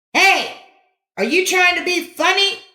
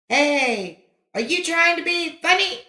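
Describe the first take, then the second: First: Much higher and louder angry snap; snapped. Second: High angry snap thrown back; echo. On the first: Boy snapping at the kid across the valley, angry. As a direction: snap at him, offended. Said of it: "Johnny snapped". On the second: Echo returning the angry snap, distant. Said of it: "came back from across the valley". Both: A narrator's reading.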